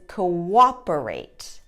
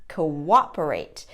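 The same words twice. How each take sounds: First: A W sound links the first two vowels. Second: The same.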